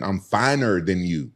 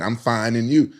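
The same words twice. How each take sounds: First: "finer than you", slow, as separate words; misheard phrase. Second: "fine and you", with "and you" as a question; corrected phrase. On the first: Grandmother's greeting as he misheard it, slowly spelled out "finer than". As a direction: draw out "finer than" as a comparison. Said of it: "I always thought she was saying". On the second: Grandmother answering how you doing, "fine and you" with questioning rise. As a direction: say "fine", then "and you" rising at the end. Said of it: "But she was saying". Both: Retold or imitated.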